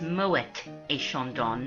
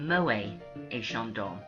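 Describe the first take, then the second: First: The final T of Moet is sounded. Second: The final T of Moet is silent. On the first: This is how the family says the name. The speaker calls it right. "it's actually pronounced" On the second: This follows the usual French rule of a silent final T. The speaker calls it wrong.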